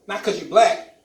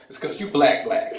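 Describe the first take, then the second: First: Said in the usual way. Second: "black, black", the word doubled for meaning; emphatic doubling. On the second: Shown as a demonstration. Cop correcting a pulled-over driver, doubled "black, black". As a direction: land on "black, black" as a punchline. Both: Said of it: "you have to say what you're saying twice".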